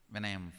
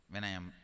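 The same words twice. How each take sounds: The two takes are said the same way.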